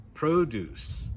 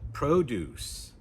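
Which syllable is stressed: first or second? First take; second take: first; first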